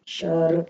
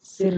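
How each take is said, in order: First: सर loud, with a neutral "uh" vowel; correct pronunciation. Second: सिर with a short "i" vowel; wrong pronunciation. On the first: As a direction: say सर as "sur", firmly and loudly. (सर में "अ" की आवाज़, ज़ोर से) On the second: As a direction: say सिर as "sir" with an i sound. (सिर में छोटी "इ" बोलकर) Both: Shown as a demonstration. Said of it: "सिर नहीं बोलते".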